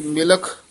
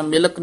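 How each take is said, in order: First: ਮਿਲਖ ending in aspirated "kh". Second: ਮਿਲਕ ending in unaspirated "k"; ਮਿਲਕ with plain k. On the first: Teacher gives the correct sound, ਮਿਲਖ with final "kh". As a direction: let air out on the last consonant of ਮਿਲਖ. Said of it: "ਖੱਖੇ ਨਾਲ ਉਚਾਰਨ ਕਰਨਾ". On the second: Teacher shows the mistaken reading, ਮਿਲਕ with "k". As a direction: close ਮਿਲਕ on a dry "k". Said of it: "ਨਹੀਂ ਕਹਿ ਦੇਣਾ". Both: Shown as a demonstration.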